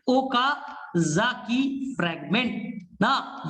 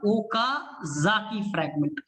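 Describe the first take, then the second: First: Okazaki fragment stretched very slowly, syllable by syllable; drawn-out repeat. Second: Okazaki fragment said slowly once; name Okazaki fragment at a slow teaching pace; clear naming. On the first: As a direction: drag out Okazaki fragment so it sticks. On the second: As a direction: introduce the term Okazaki fragment slowly and evenly. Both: Shown as a demonstration.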